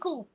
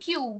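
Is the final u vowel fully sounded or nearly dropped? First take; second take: nearly dropped; fully sounded. First: The u vowel is barely sounded or dropped. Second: The u vowel is fully and clearly sounded. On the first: This is how native speakers say it. "they are saying ku" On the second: This is how learners say it. "We are saying Q"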